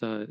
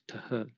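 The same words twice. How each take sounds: First: It is said as a soft fricative. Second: It is said as a t with breath. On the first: The speaker calls it wrong. "TH is not pronounced TH" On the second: The speaker calls it right. "it's pronounced TH, kind of a TH"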